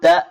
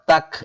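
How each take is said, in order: First: The syllable ends on an open vowel. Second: The syllable ends with a k sound. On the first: The speaker calls it right. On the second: The speaker calls it wrong.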